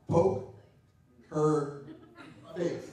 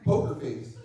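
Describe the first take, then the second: First: The phrase is said slowly, words pulled apart. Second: The phrase is said at normal quick speed. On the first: A crude hidden phrase is revealed. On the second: It is just a screen name.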